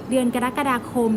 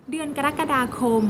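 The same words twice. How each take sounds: The two takes are said the same way.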